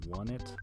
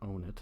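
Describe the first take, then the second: First: The name begins like the word 'one'. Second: The name begins like the word 'on'. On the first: "it's supposed to be a one, so maybe it's one it" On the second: "I favor the pronunciation Onit"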